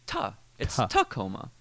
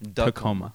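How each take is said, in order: First: The T is said as a clear T. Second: The T is said like a D. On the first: The speaker calls it right. "It's Tacoma" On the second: The speaker calls it wrong. "it sounds like you're pronouncing it with a D"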